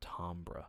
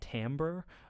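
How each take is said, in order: First: The word is said in the usual European way. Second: The word is said in the usual American way. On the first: "Europeans often pronounce it" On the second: "most people in the United States pronounce the word"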